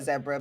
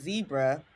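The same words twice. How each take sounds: First: Barbadian pronunciation, first syllable like 'zed'. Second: American pronunciation, first syllable like 'zee'.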